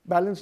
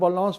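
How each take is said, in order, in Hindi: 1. यह शब्द अंग्रेज़ी तरीके से बोला जाता है। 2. यह शब्द फ़्रेंच तरीके से बोला जाता है। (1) "बैलेंस नहीं" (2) "जर्मनी में बैलेंस बोलते हैं"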